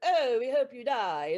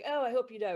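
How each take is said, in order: First: It is said in a silly cartoon voice. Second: It is said in a plain, normal voice.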